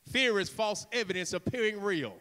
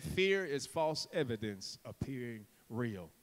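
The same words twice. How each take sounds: First: Said in the usual way. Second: Low, soft, deliberate; quiet, weighty emphasis; hushed repeat. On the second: Real, not acted. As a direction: drop right down to drive the point home.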